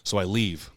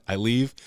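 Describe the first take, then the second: First: Said in the usual way. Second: Amused laughing repeat. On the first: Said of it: "I leave (repeated with laugh)". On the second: Real, not acted. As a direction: repeat it with a laugh, higher and louder. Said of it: "repeated with laugh".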